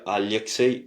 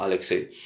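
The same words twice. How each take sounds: First: "Alexei" as a-lye-ksei; Russian soft l. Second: "Alexei" as a-le-ksei; counter-example "Alexei" without y glide; wrong hard l. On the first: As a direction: soften the l of "Alexei" into ly. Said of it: "Très important de dire Alexei". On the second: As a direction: say "Alexei" with a plain French l. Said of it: "et non pas Alexei". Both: Shown as a demonstration.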